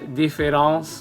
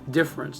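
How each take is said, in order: First: The middle vowel is pronounced: three syllables. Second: The middle vowel is dropped: two syllables. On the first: The speaker calls it wrong. "Notice I didn't say difference difference, you know, with my, my French accent going on" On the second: The speaker calls it right. "It's just difference"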